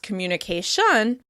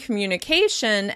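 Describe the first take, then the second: First: The stress is on the last syllable. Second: The stress is on the second-to-last syllable. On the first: "it makes the word a little challenging to decipher" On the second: "communication is stressed on the second to last syllable"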